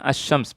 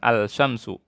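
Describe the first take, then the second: First: The L is silent and the sh is doubled. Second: The L of the article is clearly pronounced. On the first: The speaker calls it right. "bacanya asy-syams" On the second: The speaker calls it wrong. "bukan al-syamsu"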